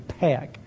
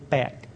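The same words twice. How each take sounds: First: The first P has a strong puff of air. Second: The first P has no puff of air. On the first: "It's an aspirated P" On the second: "which is unaspirated"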